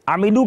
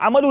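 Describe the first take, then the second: First: The word has three syllables with an i sound. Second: The word has two syllables without the i sound. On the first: The speaker calls it right. "अमिलू की जगह" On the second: The speaker calls it wrong. "अमलू निकल गया"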